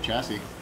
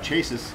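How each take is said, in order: First: It sounds like shassy, with a soft first sound. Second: It sounds like the word chases. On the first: This is how the word is actually said. The speaker calls it right. "instead of chassis" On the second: This is how the speaker thought it was said as a child. The speaker calls it wrong. "I thought it was uh, chases"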